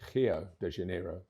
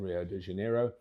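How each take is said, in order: First: Rio begins with a breathy H sound. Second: Rio begins with an English R sound.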